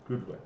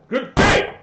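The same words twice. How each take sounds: First: Soft, understated parting words; curt farewell. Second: High, loud shout on both words; exploding farewell. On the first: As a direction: say goodbye under your breath. Paladin curtly ends the conversation. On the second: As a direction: yell a furious goodbye. Paladin repeats farewell as an outburst. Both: Acted.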